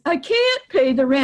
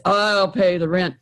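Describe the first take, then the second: First: A touch higher, pleading victim; hint of a helpless victim; lightly voiced victim. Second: A touch lower, steady hero; hint of a confident hero; lightly voiced hero. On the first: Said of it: "the victim says". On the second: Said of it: "the hero says".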